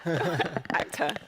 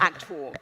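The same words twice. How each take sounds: First: The word is said in a flamboyant, theatrical way. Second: The word is said in a plain, ordinary way. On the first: "I like the actor bit. It's very flamboyant" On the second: "not actor"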